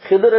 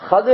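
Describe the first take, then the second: First: The name begins with Hi and ends in dur. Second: The name begins with Ha and ends in dir. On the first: "ஹிதுர் என்றும் சொல்லலாம்" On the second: "ஹதிர் என்று சொல்வதுதான் சகல சிறந்தது"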